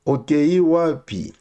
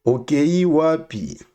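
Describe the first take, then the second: No difference in how they are said.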